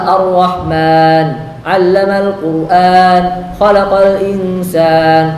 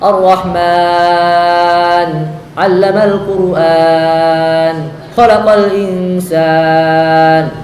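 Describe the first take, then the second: First: The final long vowel is held only briefly. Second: The final long vowel is stretched very long. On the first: The speaker calls it right. "Kalau kita bacanya cepat, hadar, maka di kita pakai yang dua" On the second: The speaker calls it wrong. "jangan kita baca mat aridnya dengan enam harokat. Gak sesuai"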